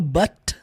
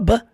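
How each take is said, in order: First: The final T sound is clearly pronounced. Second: The final T sound is dropped. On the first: "ele não fala but" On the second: "Ele só fala but"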